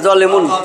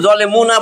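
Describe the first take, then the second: First: The word ends on n with no vowel. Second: The word ends with a final a vowel. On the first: The speaker calls it right. "সাকিন দিয়া পড়তে হবে" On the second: The speaker calls it wrong. "থামলে আপনি কিন্তু জলে মুনা বলবেন না"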